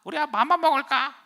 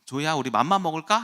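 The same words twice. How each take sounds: First: Piercingly high, loud toy parroting; 말하는 선인장 흉내. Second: Said in the usual way. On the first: Retold or imitated. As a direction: parrot it back as a talking toy. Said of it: "저것이 자꾸 날 따라하니까". (높고 큰 인형 목소리로 따라하기) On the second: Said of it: "그러니까".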